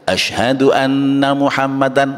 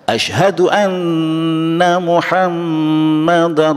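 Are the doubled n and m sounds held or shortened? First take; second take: shortened; held. First: The doubled n and m are cut short. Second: The doubled n and m are held and nasalized. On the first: The speaker calls it wrong. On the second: The speaker calls it right.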